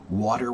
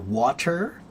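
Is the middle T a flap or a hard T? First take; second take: flap; hard T. First: It is faster, with a flapped T. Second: It has a full hard T. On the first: "When it's faster, the T gets cut in half" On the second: "That's a hard T"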